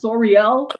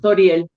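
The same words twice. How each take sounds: First: The name is said with an English accent. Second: The name is said with a Spanish accent. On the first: The speaker calls it wrong. "In English, it doesn't sound so great" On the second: The speaker calls it right. "you say it with the Spanish accent"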